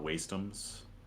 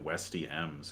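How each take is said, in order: First: The first syllable sounds like 'waste'. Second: The first syllable sounds like 'west'. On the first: The name is the intended joke. The speaker calls it right. "which I think is the intended joke" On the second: The name refers to westerns. The speaker calls it wrong. "because I thought it was like uh, you were in a western"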